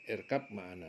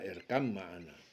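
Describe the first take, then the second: First: The first word ends with a b sound. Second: The b merges into the following m sound.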